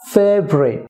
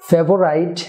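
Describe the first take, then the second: First: The word is said with two syllables. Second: The word is said with three syllables. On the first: The speaker calls it right. "Three সিলেবলের জায়গায় two syllable হবে" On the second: The speaker calls it wrong. "ফেভারাইট না হয়ে হবে"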